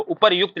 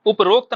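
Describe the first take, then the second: First: उपर्युक्त with "yu", "upar-yukt"; correct word form. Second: उपरोक्त with an "o", "uprokt"; wrong word form. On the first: Teacher gives students the right word, correctly pronounced. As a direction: sound the "r-yu" in उपर्युक्त. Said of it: "आगे से क्या लिखना है". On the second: Teacher rejects the common form, mispronounced. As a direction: say उपरोक्त in three syllables, "up-rokt". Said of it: "नहीं होता है". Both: Shown as a demonstration.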